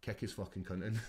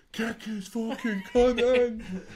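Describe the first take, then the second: First: Said in the usual way. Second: Much higher, louder and very slow, roared from the corner; Scottish corner shout. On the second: Retold or imitated. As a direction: bellow it like a Scottish corner man on telly. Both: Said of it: "It's Scottish".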